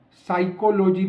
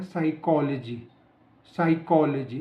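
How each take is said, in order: First: साइकोलॉजी split as "psycho-lo-jee" with full o vowels; divided compound pronunciation. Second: साइकोलॉजी as "sai-KOL-uh-jee"; stress on second syllable. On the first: Teacher showing what to avoid, साइकोलॉजी as "psycho-lo-jee". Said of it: "ना बोल के". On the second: Teacher modelling the word for learners, साइकोलॉजी stressed "sai-KOL-uh-jee". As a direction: stress KOL in साइकोलॉजी, weak schwa after it. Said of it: "इसको हमने बोलना है". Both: Shown as a demonstration.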